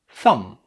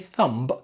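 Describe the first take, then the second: First: No b sound is heard at the end. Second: A b sound is heard at the end. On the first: The speaker calls it right. "No B" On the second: The speaker calls it wrong. "Don't say thumb"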